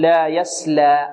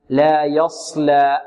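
First: Slow لا يسلى with thin س; light sin. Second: Slow لا يصلى with heavy ص; emphatic sad. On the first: Tajweed teacher contrasting letters, thin س in يسلى. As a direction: give يسلى a light, unemphatic س. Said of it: "في مقابلها السين تقول". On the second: Tajweed teacher contrasting letters, heavy ص in يصلى. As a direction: darken and fill the ص in يصلى. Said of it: "تفخيم الصاد". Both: Shown as a demonstration.

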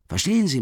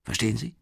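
First: "Verstehen" much higher and louder, then falling; insistent high question. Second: Said in the usual way. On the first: Acted. Marmeladov urges Raskolnikov, "Verstehen" high, loud and falling. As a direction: hammer "Verstehen Sie" at him. Drunk man pressing his listener.

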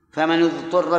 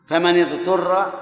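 First: فمن اضطر with the nun of فمن said with damma, famanu-dturra. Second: فمن اضطر with the nun of فمن said with kasra, famani-dturra, slowly. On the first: Teacher contrasts for the class the damma reading, famanu. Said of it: "بالضم". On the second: Teacher shows the class the kasra reading, slowly voicing famani. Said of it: "بالكسر". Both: Shown as a demonstration.

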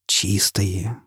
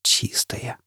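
First: Soft, hushed "Чистые" with a lift; awed hush. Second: Unvoiced whisper of "Чистые". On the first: Acted. Foyle sees his clean face, hushed and awed. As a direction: breathe it in wonder. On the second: Foyle repeats it to the mirror in a whisper. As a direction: barely breathe the word. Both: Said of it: "прошептал Фойл".

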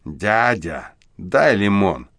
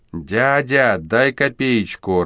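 First: A hint of a brazen hoarse street kid; the boy drops the act and turns brazen; cheeky husky voice. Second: Put-on high, slow, pleading little street kid; plaintive child's "Дядя, дай копеечку"; thin child's voice. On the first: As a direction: demand it, insolent and rough. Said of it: "наглым хрипловатым голосом". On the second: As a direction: beg like a small child. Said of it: "тонкий детский голос". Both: A narrator's reading.

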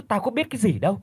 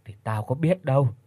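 First: High-pitched mocking echo of mother's words; mocking her mother. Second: Said in the usual way. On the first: Daughter mocks her mother's excuse: high, sarcastic echo. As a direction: parrot the excuse back, much higher.

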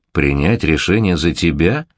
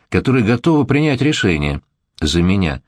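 First: Slow, astonished echo; very surprised. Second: Said in the usual way. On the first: Acted. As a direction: repeat it in disbelief. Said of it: "Крайне удивился Марк Исаевич".

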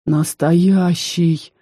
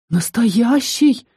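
First: Breathed out. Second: Hiccup it out in fright; hiccupped. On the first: Raz breathes it out leaning on the doorframe, stunned. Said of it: "выдохнул Раз". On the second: Raz hiccups it out on seeing the ghost, frightened. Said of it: "икнул Раз". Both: A narrator's reading.

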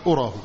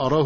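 First: "أراه" said as ura, u vowel first. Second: "أراه" said as ara, a vowel first. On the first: Teacher naming the wrong reading. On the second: Teacher repeating the correct reading. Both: Shown as a demonstration. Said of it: "وليس".

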